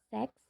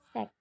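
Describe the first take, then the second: First: The word ends with a ks sound. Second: The word ends with a k sound. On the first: The speaker calls it wrong. "bukan seks" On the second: The speaker calls it right. "tapi sek. Nggak ada S-nya"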